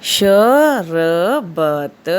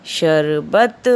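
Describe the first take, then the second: First: शरबत split as sha-ra-bat, very slow and louder; syllable by syllable. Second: Said in the usual way. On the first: Shown as a demonstration. Teacher spelling शरबत out for pupils to repeat. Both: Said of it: "मेरे साथ-साथ इसका उच्चारण करिए".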